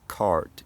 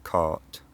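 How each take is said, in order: First: The r after the vowel is pronounced. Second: The r after the vowel is dropped. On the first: "these accents retain that rhoticity" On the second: "instead of"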